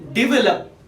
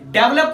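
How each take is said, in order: First: The first syllable sounds like 'di'. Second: The first syllable sounds like 'de'. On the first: The speaker calls it right. "इसकी pronunciation क्या है, डिवेलप" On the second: The speaker calls it wrong. "डेवलप नहीं"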